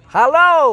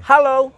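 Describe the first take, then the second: First: The word is said at a high pitch. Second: The word is said at a middle pitch. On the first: "itu up, high-nya gitu" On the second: "itu middle"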